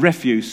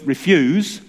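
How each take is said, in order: First: REF-use, stress on the first syllable; refuse as in rubbish. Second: Re-FUSE, stress on the second syllable; refuse as in decline. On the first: Preacher contrasting two meanings of one spelling, REF-use. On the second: Preacher contrasting two meanings of one spelling, re-FUSE. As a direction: say "refuse" as ri-FYOOZ, the verb. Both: Shown as a demonstration. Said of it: "spelt the same but mean totally different things".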